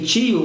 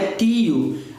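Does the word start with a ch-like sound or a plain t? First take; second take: ch-like; plain t. First: It starts with a ch-like sound, tongue middle raised. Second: It starts with a plain t from the tongue tip. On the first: "que a gente pronuncia aqui tio, o meio da língua" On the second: "não é mais a ponta da língua, não é tio"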